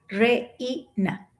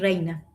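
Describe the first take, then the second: First: The vowels are said as separate syllables. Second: The vowels glide together in one syllable. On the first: The speaker calls it wrong. "porque va a decir reina" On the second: The speaker calls it right. "No puede decir reina"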